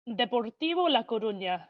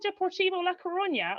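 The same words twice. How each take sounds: First: It is said with a Spanish accent. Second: It is said with an Irish accent. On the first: The speaker calls it right. "Say it correctly" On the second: The speaker calls it wrong. "I can't say it like that anymore"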